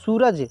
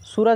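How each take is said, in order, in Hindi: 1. पहला स्वर लंबा है। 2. पहला स्वर छोटा है। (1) "क्या बोलते हैं, सूरज" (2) "सूरज नहीं बोलते हैं"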